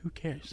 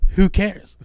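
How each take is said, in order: First: It is said at a normal, quieter volume. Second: It is said at a louder volume.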